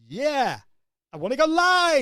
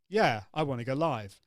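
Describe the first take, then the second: First: The pitch goes up on every phrase. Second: The pitch stays fairly level throughout. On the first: "go up on each of those bits" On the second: "normally I would say"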